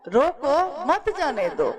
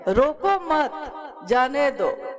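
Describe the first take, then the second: First: There is a pause right after रोको. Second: There is a pause right after मत.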